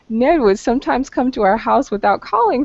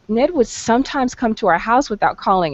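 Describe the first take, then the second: First: The voice sounds amused and light. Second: The voice sounds irritated and annoyed. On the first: The habit struck the speaker as funny. "if I found it funny" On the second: The habit bothered the speaker. "If I'm annoyed,... There's my tone of annoyance"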